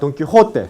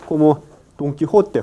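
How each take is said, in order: First: The j is a harsh scraping throat sound. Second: The j is a soft breathy h sound. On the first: "cuando usted pronuncia Don Quijote como los españoles, hay fricción en este parte" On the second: "Eso se llama la consonante aspirada, no velar"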